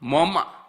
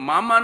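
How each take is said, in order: First: The first vowel is pronounced as an 'o' sound. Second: The vowels are pronounced as open 'a' sounds.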